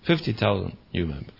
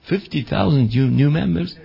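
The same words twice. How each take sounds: First: It is said casually, as a plain matter of fact. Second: It is said with astonishment, as an incredulous question. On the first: The huge growth is reported as nothing special. "they say it like this, you know, just like this" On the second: The listener can hardly believe the huge growth. "even the Dutch starts to get hiccups"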